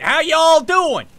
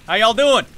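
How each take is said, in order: First: Broad, drawn-out country accent, higher and louder. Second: Light country accent greeting. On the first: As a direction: ham up the country accent, slowly. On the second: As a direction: greet them with a touch of country twang. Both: Shown as a demonstration. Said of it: "It's my country accent".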